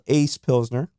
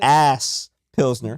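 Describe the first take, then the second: First: The first word sounds like ace. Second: The first word sounds like ass. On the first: This is how the brewers themselves say the name. "the way they pronounce it" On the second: This is how the name reads from its spelling. "that shit on the menu says"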